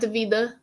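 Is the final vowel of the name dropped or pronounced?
pronounced. The name ends with an added final vowel sound. The speaker calls it wrong. "not Davida"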